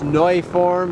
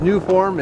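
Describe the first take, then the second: First: The first syllable sounds like 'noy'. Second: The first syllable sounds like 'new'. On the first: This is the maker's own way to say it. The speaker calls it right. "is the proper pronunciation of it" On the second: This is the everyday way people say it. The speaker calls it wrong. "what we would say is new form"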